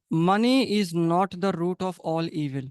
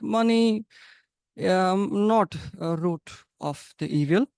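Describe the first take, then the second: First: Said in the usual way. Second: A light imitation of a Russian English accent. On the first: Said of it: "Russian people does not say it like that". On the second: Teacher imitating Russian speakers for students, mild Russian accent. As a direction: mimic how a Russian speaker drops the is. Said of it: "They use a very strong accent".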